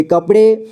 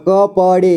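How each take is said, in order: First: Said in the usual way. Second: कपड़े slowly split as क, प, ड़े; syllable by syllable. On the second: Shown as a demonstration. Teacher showing learners कपड़े, slowly sounded out. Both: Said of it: "इसे पढ़ेंगे".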